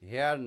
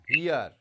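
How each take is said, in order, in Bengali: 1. শব্দটি 'ay' স্বরধ্বনি দিয়ে শুরু হয়। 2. শব্দটি 'ee' স্বরধ্বনি দিয়ে শুরু হয়। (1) "হেয়ার না" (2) "উচ্চারণটা হবে হিয়ার"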